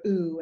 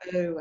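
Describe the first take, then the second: First: The oo vowel is said in a British accent. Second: The oo vowel is said in an Australian accent. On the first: "Brits go ooh" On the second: "Australians go ooh"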